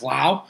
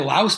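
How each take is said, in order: First: The final s sound is silent. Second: The final s sound is pronounced. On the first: "I believe it's a silent S" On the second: "Some say Laos"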